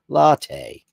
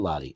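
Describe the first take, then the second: First: The name ends with an 'ay' sound. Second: The name ends with an 'ee' sound. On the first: The speaker calls it right. "It's pronounced like the coffee, a latte" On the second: The speaker calls it wrong. "not Lottie"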